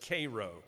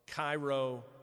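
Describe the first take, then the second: First: It is pronounced the local Georgia way. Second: It is pronounced like the Egyptian city's name. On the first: It names the town in Georgia. "in Georgia they pronounce it Cairo" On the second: It names the city in Egypt. "spelled like and looks like Cairo, Egypt"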